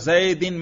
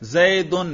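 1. آخری حصہ i کی آواز سے ادا ہوتا ہے۔ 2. آخری حصہ u کی آواز سے ادا ہوتا ہے۔ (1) "جر پڑھا" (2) "رفع"

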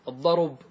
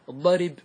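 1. الراء تحمل ضمة قبل الباء الأخيرة. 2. الراء تحمل كسرة قبل الباء الأخيرة. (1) "انقلوا ضمة إلى الراء" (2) "الضرب نقلت إيش؟ الكسرة"

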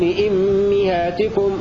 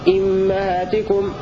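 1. الحركة بعد الميم المشددة هي 'i'. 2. الحركة بعد الميم المشددة هي 'a'. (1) "فحمزة يقرأ بضم بكسر الهمزة وبكسر الميم معا هكذا" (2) "والكسائي يكسر الهمزة فقط ويفتح الميم"

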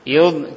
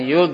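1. Suku katanya dipanjangkan dengan dengungan sengau yang panjang. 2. Suku katanya berakhir pendek dengan lepasan yang dipantulkan. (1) "Tapi istitolah dipanjang yud" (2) "jangan yud, tidak boleh dikol-kol-kolan"

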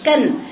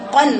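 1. الحرف الأول خفيف ورقيق. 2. الحرف الأول ثقيل ومفخم. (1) "مش كن" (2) "قن قف مفخمه"

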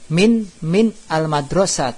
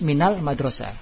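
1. Kedua kata dipisah, tanpa vokal penyambung. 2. Kedua kata disambung melalui vokal penyambung.

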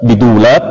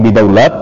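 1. Vokal setelah d adalah 'u'. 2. Vokal setelah d adalah 'a'. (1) "bidamid dal" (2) "wa fathihah"

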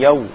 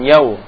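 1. Vokal itu dengan bibir dibulatkan kuat, menutup. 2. Vokal itu dengan bibir dibulatkan longgar, hampir tidak menutup. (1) "tapi yau. Kurang nutup bibirnya" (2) "Jangan yau"

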